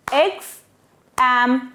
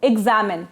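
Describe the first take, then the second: First: X-am-in in three pieces with clear gaps; syllable by syllable. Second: Said in the usual way. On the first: Shown as a demonstration. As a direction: break X-am-in apart, one syllable at a time. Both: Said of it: "we break the word there".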